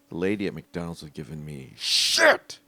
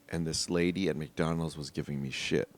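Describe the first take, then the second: First: It is said with exaggerated, lively inflection. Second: It is said flatly, with little inflection.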